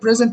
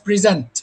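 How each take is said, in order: First: The stress is on the first syllable. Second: The stress is on the second syllable. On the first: It is used as a noun. "if it's pronounced as a noun, we pronounce it present as you pronounce that" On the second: It is used as a verb. "if it's used as a verb, like in this context, the stress falls on the second part"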